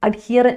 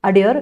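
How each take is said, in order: First: അഡ്ഹിയർ said as ad-hear, the h sounded. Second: അഡിയർ said as a-deer, the h silent. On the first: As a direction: say അഡ്ഹിയർ with the h pronounced, the spelling form. (അഡ്ഹിയർ എച്ച് ഉച്ചരിച്ച്) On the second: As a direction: say അഡിയർ with no h sound at all. (അഡിയർ എച്ച് ഇല്ലാതെ ഉച്ചരിച്ച്) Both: Shown as a demonstration. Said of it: "എച്ച് ക്യാ-, silent ആണ്".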